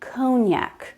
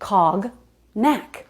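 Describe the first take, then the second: First: It is said smoothly as one word. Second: It is split into two parts, as written. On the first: The speaker calls it right. "but it's cognac" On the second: The speaker calls it wrong. "Look at the letters"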